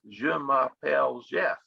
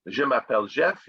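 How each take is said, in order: First: Southern US drawl on the French words; French with a lightly put-on Southern US accent. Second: Said in the usual way. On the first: Teacher imitating Louisiana French, Southern US accent. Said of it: "they say". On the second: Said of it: "instead of saying".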